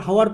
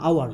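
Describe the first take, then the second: First: হাওয়ার said with a sounded h at the start; wrong pronunciation. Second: আওয়ার with a silent h, opening straight on আ; আওয়ার without any h; correct pronunciation. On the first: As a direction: say হাওয়ার opening on a clear h, the mistaken way. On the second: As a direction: say আওয়ার starting on a clean আ, no h. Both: Shown as a demonstration. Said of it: "এটাকে হাওয়ার পড়বে না".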